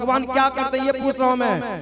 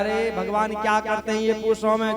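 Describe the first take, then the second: First: It is said loudly. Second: It is said at normal volume.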